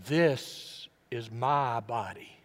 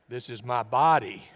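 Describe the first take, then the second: First: THIS drawn out and hit first, slow; preacher wondering which word Jesus stressed, stress on THIS. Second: BODY hit loud at the end; preacher trying Jesus' possible inflection, stress on BODY. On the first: Lean slowly on "This", then pause. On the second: Run up to "body" and land hard on it. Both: Shown as a demonstration. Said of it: "Which word did he really, r-, really note?".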